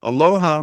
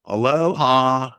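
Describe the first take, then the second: First: Put-on loud, raised greeting in a light country accent. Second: Put-on drawn-out, high, loud country-accent greeting. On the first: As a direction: call it out with a touch of Utah country accent. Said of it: "Mom said it in a country accent". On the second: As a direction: stretch it slowly in a silly country accent. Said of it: "said it in a country accent". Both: A narrator's reading.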